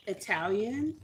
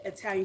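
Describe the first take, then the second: First: Italian said with a short ih at the start, ih-TAL-yun; careful Italian. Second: Italian said with a long eye at the start, EYE-tal-yun; habitual Italian. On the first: Correcting herself for her part-Italian sister, saying Italian as ih-TAL-yun. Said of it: "I try to say Italian". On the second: Admitting her habit to viewers, saying Italian as EYE-tal-yun. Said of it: "I always say Italian". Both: Shown as a demonstration.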